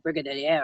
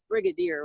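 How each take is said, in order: First: The word is pronounced with a French-influenced sound. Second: The word is pronounced the usual English way. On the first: The speaker calls it wrong. "I think I said, you know, brigadier or something" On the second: The speaker calls it right. "you do know that it's brigadier, right?"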